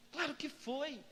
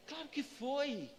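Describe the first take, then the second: No difference in how they are said.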